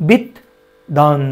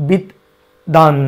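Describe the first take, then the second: The two takes are said the same way.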